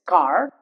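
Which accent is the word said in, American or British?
American. The final R is sounded, American style. "in American English accent, it's car. The R will also be pronounced"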